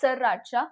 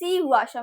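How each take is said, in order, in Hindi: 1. शब्द 'sar' ध्वनि से शुरू होता है। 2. शब्द 'sree' ध्वनि से शुरू होता है। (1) "it is not सरराचा" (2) "it is Sriracha"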